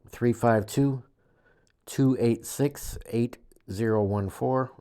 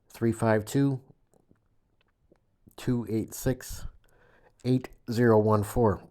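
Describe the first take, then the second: First: The number is read at normal speed. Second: The number is read slowly.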